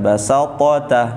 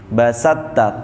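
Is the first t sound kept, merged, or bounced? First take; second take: bounced; merged. First: The first t is released with a bouncing vowel. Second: The first t merges fully into the second. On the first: The speaker calls it wrong. "yang nggak boleh itu yang dipantulkan" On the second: The speaker calls it right. "to-nya nggak usah dibentuk, langsung masuk ke huruf ta"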